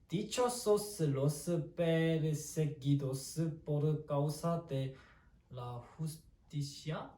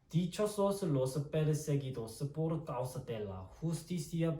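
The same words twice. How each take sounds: First: It is read hesitantly and without fluency. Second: It is read confidently and fluently. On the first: The speaker calls it wrong. "읽긴 좀 읽을 수 있죠" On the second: The speaker calls it right. "되게 잘 읽었어요"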